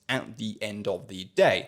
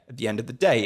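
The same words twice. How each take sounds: First: Each word is said separately, one by one. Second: The words run together as one smooth unit. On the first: The speaker calls it wrong. "not pronounced at the end of the day ... word by word pronunciation" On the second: The speaker calls it right. "it's a single smooth unit of sound"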